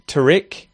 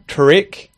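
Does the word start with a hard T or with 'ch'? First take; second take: hard t; hard t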